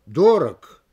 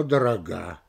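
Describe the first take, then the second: First: "Дорог" punched loud on ДО; stress on first syllable. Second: "дорога" stressed on final ГА; stress on last syllable. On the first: Lecturer illustrating movable stress, first-syllable "Дорог". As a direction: hit ДО in "Дорог". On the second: Lecturer illustrating movable stress, end-stressed "дорога". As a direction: save the beat for ГА in "дорога". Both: Shown as a demonstration. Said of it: "Оно может менять своё место".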